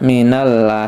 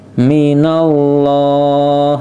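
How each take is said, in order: First: The l in Allah is light and thin. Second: The l in Allah is dark and thick. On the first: The speaker calls it wrong. "tidak minallah ya" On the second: The speaker calls it right. "lamnya dibaca tebal"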